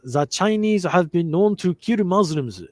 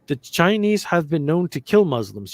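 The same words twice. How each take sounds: First: It is read in a put-on Japanese accent. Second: It is read in the speaker's ordinary accent.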